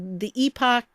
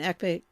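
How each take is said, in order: First: The second syllable has a full 'ock' vowel. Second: The second syllable is a reduced 'ick' sound. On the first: "you can say it that way if you want" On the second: "it's the American way of saying it... it's more common"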